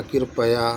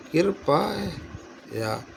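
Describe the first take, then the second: First: कृपया as one word, short middle vowel; कृपया run together. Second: कृपया very slow, split "kirpaa... ya"; कृपया broken up. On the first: Teacher checking the word's spelling, said in one piece. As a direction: say कृपया briskly as "kirpaya". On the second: Teacher working out the spelling aloud, slow syllables. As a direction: stretch the middle of कृपया, softer, pause before "ya". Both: Shown as a demonstration. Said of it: "इस तरह से नहीं होता".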